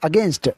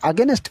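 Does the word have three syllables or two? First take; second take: two; three. First: It is said in two syllables, no extra vowel. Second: An extra vowel splits it into three syllables. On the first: The speaker calls it right. "It's అగేన్స్ట్" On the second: The speaker calls it wrong. "అగెనెస్ట్ కాదు"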